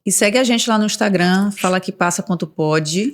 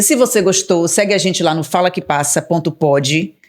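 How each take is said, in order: First: Voz sensual de locutora. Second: Said in the usual way. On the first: Acted. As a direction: fale de forma sedutora. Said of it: "eu usei uma voz sensual". (voz sedutora de locutora) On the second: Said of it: "já perdi a paciência".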